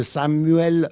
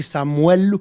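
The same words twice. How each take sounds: First: Said in the usual way. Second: Samuel said "Samwel", with a w glide; Spanish-influenced Samuel. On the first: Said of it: "je m'excuse de ma prononciation". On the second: Shown as a demonstration. Preacher apologizing for his Spanish habit, Samuel pronounced "Samwel". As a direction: say Samuel the Spanish way, "sam-WEL". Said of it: "au lieu de Samuel, je dis".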